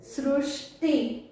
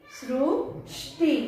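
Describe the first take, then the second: First: सृष्टि said slowly, syllable by syllable; slow syllable demo. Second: सृष्टि drawn out very slowly; slow syllable demo. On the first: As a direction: stretch out सृष्टि slowly for the class. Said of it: "अभी यहाँ पर देखो सृष्टि". (सृष्टि को धीरे-धीरे, एक-एक अक्षर तोड़कर बोलना) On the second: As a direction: spell out सृष्टि slowly for children. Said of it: "ष्टि, देखो यहाँ पर श आधा है". (सृष्टि को बहुत धीरे, खींचकर बोलना) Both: Shown as a demonstration.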